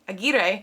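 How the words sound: The name is said with a Spanish pronunciation. "some people do pronounce it in the Spanish way"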